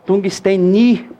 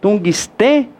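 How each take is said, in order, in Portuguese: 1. A sílaba tônica cai em ni. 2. A sílaba tônica cai em te. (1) "a sílaba tônica aqui não é o ni, não" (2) "com acento no E"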